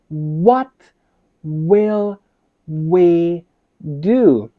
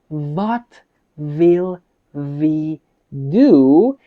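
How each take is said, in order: First: The words start with a W sound. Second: The words start with a V sound. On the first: The speaker calls it right. "You should say" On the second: The speaker calls it wrong. "you're pronouncing a V sound. It is not correct"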